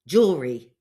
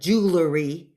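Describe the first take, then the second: First: It is said as spelled, with three syllables. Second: It is said with syllables swapped, jew-ler-y. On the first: The speaker calls it right. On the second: The speaker calls it wrong.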